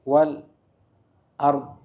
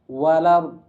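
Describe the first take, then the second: First: There is a short stop after the first word. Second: The words run together with no glottal stop. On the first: This is another reading tradition's form. "dua harokat dulu berhenti" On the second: This is one reading tradition's form. "hilang hamzahnya"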